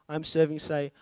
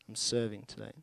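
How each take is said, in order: First: It is said in a determined, upbeat tone. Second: It is said with a weary, reluctant sigh.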